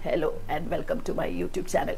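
The voice is tight, as if squeezed. "ആരോ അമ്മയുടെ കുരവിളക്കി പിടിച്ച് ഞെക്കി വെച്ചിരിക്കെ"

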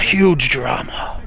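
It is said in a put-on Australian accent.

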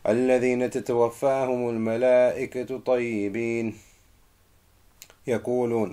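It stops right after the word yaqulun. The speaker calls it wrong. "You are not allowed to stop there. That's wrong"

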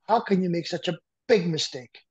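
The word big is strongly stressed.

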